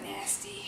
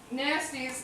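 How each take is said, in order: First: Nasty whispered with Chicago vowels; Chicago accent. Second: Said in the usual way. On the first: Shown as a demonstration. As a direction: Nastes said as nasty, Chicago style. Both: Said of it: "with my Chicago accent".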